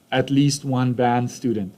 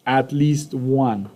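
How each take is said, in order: First: Said in the usual way. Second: "At least one" slowly, stress on "least"; slow emphasis. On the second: Shown as a demonstration. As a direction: spell out "least" slowly for the class. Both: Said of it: "Then the emphasis on".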